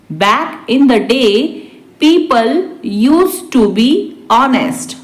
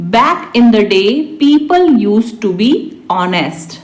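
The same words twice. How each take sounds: First: Measured dictation pace; slow repeat. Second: Said in the usual way. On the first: Shown as a demonstration. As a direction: break it into small chunks. Teacher repeats translation word by word. (धीरे-धीरे, रुककर)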